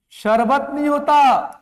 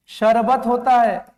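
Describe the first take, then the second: First: शरबत squeezed into शर्-बत, slow; slow, emphatic sharbat for शरबत; wrong pronunciation. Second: शरबत slowly as श-र-बत; slow, falling sha-ra-bat for शरबत; correct pronunciation. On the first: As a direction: join र and ब in शरबत. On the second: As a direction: give the र of शरबत its own vowel. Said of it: "शरबत नहीं होता". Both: Shown as a demonstration.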